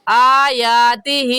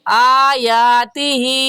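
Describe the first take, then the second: No difference in how they are said.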